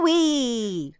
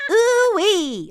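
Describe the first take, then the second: First: Ooh-wee held longer; longer catchphrase. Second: High ooh-wee, kept short; short catchphrase. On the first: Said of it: "He normally says it longer". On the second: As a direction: pitch it up and don't drag out the ooh-wee. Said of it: "but it's quite short". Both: Shown as a demonstration.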